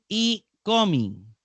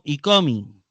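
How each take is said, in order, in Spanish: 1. La primera palabra se dice separada de la siguiente. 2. La primera palabra se une directamente con la siguiente. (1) "No se dice" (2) "sino; se pronuncia con la palabra que sigue unida"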